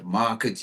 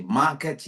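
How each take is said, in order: First: "market" said the right way, its last vowel reduced; right pronunciation. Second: "market" with a full "et" ending, as the students said it; "market" said the wrong way, its last syllable clear; wrong pronunciation. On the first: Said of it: "you say market". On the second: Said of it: "You don't say market". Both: Shown as a demonstration.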